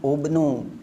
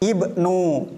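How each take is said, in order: First: The word begins with a u vowel. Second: The word begins with an i vowel. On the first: The speaker calls it wrong. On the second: The speaker calls it right.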